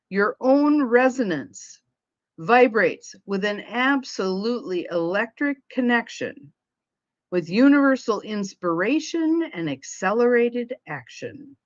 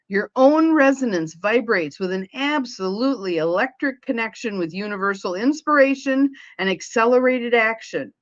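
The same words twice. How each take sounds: First: It is said more slowly. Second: It is said at a normal pace.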